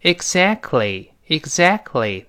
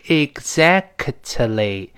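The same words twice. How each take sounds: First: "Exactly" slowly, t left silent before "ly"; dropped t. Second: "exactly" slowly, with k and t both sounded; fully released t. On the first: Teacher showing the t is inaudible, dropped t. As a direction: glide from k straight into l in "Exactly". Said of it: "后面那个t就失去爆破了". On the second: Teacher showing the full original form, released t. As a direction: pop out every consonant of "exactly", t included. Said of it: "本来应该是exactly". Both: Shown as a demonstration.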